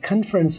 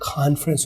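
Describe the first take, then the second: First: The first syllable has a short 'kun' vowel. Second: The first syllable has a long 'kon' vowel. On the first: The speaker calls it wrong. "नहीं होता" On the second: The speaker calls it right. "होता है"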